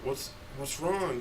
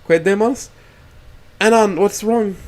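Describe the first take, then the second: First: Slow, soft, sneering; smug taunt. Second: High, louder startled question; alarmed and puzzled from the front seat; confused tone. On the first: Dead friend Nazar taunts him in the reflection, slow and smug. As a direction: drag it out like a smirking ghost. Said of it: "with a laugh and flashes a smug smirk". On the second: Rosa stops the car and asks Anan, confused and alarmed. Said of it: "asks with a confused tone". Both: Acted.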